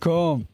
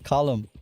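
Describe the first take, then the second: First: The name is said as one syllable. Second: The name is said as two syllables. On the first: The speaker calls it wrong. "it's not Combe. No Irish person would call him Combe" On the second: The speaker calls it right. "It's Column"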